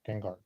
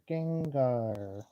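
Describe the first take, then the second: First: The character voice is pitched lower. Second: The character voice is pitched higher.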